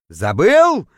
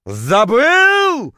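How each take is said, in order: First: Loud incredulous echo, swelling upward; outraged roar. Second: Very high, loud, drawn-out howl; outraged howl. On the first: Poisoned diver to the forgetful guide, outraged roar. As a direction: throw the word back in outrage. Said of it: "взревел, точнее, даже завыл я". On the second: Poisoned diver to the guide who forgot to warn him, outraged howl. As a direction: stretch the word into a wounded howl. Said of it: "точнее, даже завыл я". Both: A narrator's reading.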